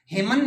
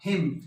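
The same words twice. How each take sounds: First: हिमन with an extra n after m; sounded silent n. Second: हिम ending on m, no n; silent n. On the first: Teacher showing the mistake, final n sounded in हिमन. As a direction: add an n to the end of हिमन. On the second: Teacher correcting students, हिम without final n. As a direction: close हिम on the m. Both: Shown as a demonstration. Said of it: "हिमन नहीं होता".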